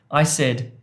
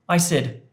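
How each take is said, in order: The two takes are said the same way.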